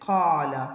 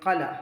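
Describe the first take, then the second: First: The first vowel is held long. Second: The first vowel is kept short. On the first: The speaker calls it right. "ഫതഹുള്ള അക്ഷരമായതുകൊണ്ട് നമ്മൾ അലിഫ് ഉപയോഗിച്ചിട്ടാണ് കാ എന്ന് പറയാം" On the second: The speaker calls it wrong. "കല എന്ന് പറഞ്ഞാൽ അവിടെ എന്ത് വന്നിട്ടില്ല? നീട്ടൽ വന്നിട്ടില്ല"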